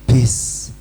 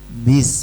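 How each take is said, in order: First: The b is released with a hissing puff of air. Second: The b is released cleanly without extra air. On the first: The speaker calls it wrong. "Ada anginnya itu salah" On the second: The speaker calls it right. "Harusnya bis"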